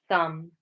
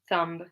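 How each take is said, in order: First: The word ends with an M sound only. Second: The word ends with an audible B sound. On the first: The speaker calls it right. "we just pronounce it like an M at the end" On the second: The speaker calls it wrong. "So we don't say"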